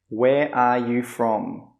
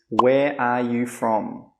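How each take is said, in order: The two takes are said the same way.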